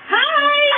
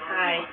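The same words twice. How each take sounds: First: It is said brightly with lots of energy. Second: It is said flatly with no energy.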